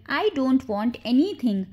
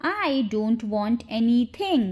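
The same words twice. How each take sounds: First: Said in the usual way. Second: Slow, careful teaching pace; slow model repeat. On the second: Shown as a demonstration. Teacher shows learners the English sentence, slowly. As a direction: take it slowly, word by word.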